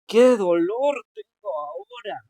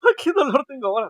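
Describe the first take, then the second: First: It is said with pain, sounding suffering. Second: It is said laughingly, sounding amused.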